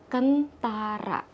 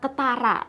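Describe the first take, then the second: First: It is said with an n before the t. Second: It is said without an n before the t. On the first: This is the standard form. The speaker calls it right. "ternyata bahasa bakunya adalah kentara" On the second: This is the everyday form people use. The speaker calls it wrong. "biasanya orang-orang tuh menyebutnya dengan kata ketara"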